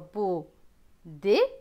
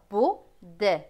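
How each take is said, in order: First: The word ends with a closed é vowel. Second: The word ends with an open è vowel. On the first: Some regions say it this way. "E T se prononce et pour certaines régions" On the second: Other regions say it this way. "est pour d'autres"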